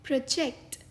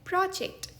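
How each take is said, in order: First: प्रोजेक्ट stressed on the second syllable, the verb; प्रोजेक्ट, stress at the end; pro-JECT. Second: प्रोजेक्ट stressed on the first syllable, the noun; प्रोजेक्ट, stress up front; PRO-ject. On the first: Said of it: "दूसरा उच्चारण है". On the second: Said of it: "पहला उच्चारण है प्रोजेक्ट". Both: Shown as a demonstration.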